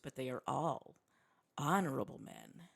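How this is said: It is said in a smarmy, oily tone.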